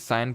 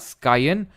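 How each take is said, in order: First: The word is said like 'sign', without k. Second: The word is said with a k sound. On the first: "I think साइन pronounce करते होंगे" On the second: "स्कायन या फिर जो भी इसको pronounce करते हो"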